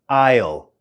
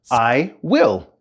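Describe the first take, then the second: First: It is said as one contracted syllable. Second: It is said as two separate full words.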